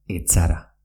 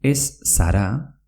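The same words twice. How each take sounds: First: "etzara" as et-sara; double Z as TZ. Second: Said in the usual way. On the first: Shown as a demonstration. Teacher shows ez zara merging into ts. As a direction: say "etzara" with a ts in the middle. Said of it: "como una T Z". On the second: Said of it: "se pronuncia etzara".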